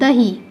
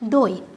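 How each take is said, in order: First: The word keeps the h sound. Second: The word has no h sound. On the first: This is the original form of the word. "শব্দটার নাম আমি কি বললাম?" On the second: This is how the word is commonly said today. "এটাকে যদি আমি বলি দই"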